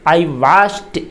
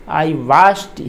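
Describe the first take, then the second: The two takes are said the same way.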